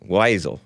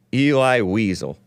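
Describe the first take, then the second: First: "Wiesel" said as WHY-zul; trial pronunciation. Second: "Eli Wiesel" said as EE-lye WEE-zul; trial pronunciation. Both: Shown as a demonstration. Host guessing at an author's name, trial pronunciation.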